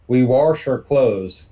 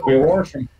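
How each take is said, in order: First: Wash said as "warsh" with an R before the sh; drawn-out "warsh", slow; intrusive R in wash. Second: Wash said as "warsh" with an R before the sh; "We wash 'em" with the R in wash; intrusive R in wash. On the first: Host showing his local "warsh" for wash, said slowly. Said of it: "an extra R that's not visible but pronounced". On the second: Host repeating his "warsh" to the puzzled co-host. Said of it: "extra R that's not visible but pronounced". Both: Shown as a demonstration.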